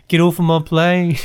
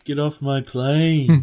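First: British take on the plane line; a quick British Harrison Ford quote. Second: Slow British growl of a movie line; British Harrison Ford. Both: Pretend. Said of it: "British voice with a bunch of Harrison Ford lines".

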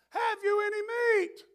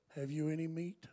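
First: High shouted call from the clouds; God yelling down. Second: Quiet, low repeat of the question; soft echo. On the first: Retold or imitated. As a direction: bellow it down from above. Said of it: "yell down". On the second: Shown as a demonstration. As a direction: ask it gently, almost to yourself.

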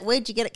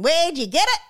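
First: Mild ocker Australian. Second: High, loud ocker Australian "Where'd you get it?"; broad Australian ad. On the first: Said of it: "over-exaggerated Australian". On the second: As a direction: belt it like a brash Aussie ad man. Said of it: "where the guy was going". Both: Retold or imitated.

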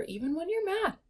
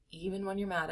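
First: Said in the usual way. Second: Softer, dropped-down repeat. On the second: Shown as a demonstration. Coach repeating it softly to couples. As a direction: say it again gently, pulling back.

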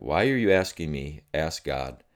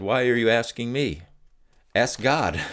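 First: Said in the usual way. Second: A light impression of the wife, raised and brisk; wife's retort. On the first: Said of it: "The moment she said that". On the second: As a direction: toss the question back at him as she did. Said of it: "she looked at me and she said".

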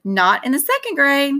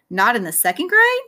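First: Said in the usual way. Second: "Not in the second grade?" rising on GRADE; question tune. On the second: Shown as a demonstration. Narrator retakes the line as a question, rising on GRADE. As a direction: lift GRADE at the end as a question. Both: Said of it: "that's a question".

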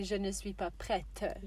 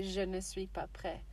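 First: Slow, with the final t of "prête" sounded; feminine form. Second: "prêt" ending on an open eh, silent t; masculine form. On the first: Teacher showing what a girl would say, careful feminine "prête". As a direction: release the t clearly at the end of "prête". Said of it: "would be for a girl". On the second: Teacher showing what the learner says, masculine "prêt". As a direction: leave the t off the end of "prêt". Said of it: "But you say". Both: Shown as a demonstration.

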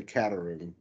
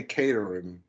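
First: Caterham said CAT-er-um; first syllable of Caterham like "cat"; own mistaken pronunciation. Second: Caterham said KAY-ter-um; first syllable of Caterham like "Kate"; co-host's pronunciation. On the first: Admitting the urge to misread it, Caterham as CAT-er-um. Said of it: "I wanna say Caterham". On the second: Quoting how the co-host says it, Caterham as KAY-ter-um. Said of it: "So you say Caterham". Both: Shown as a demonstration.

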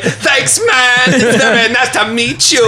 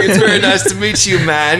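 First: Very high, hammed-up star impression. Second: Higher, quick polite greeting; mock meeting. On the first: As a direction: squeal it out as a terrible celebrity impression. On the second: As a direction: play a quick hello to an idol. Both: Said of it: "nail your [name] impression".

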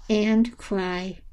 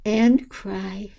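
No difference in how they are said.

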